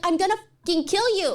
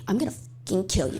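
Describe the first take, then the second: First: It is said in a desperate, frustrated tone. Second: It is said in a dark, sinister tone.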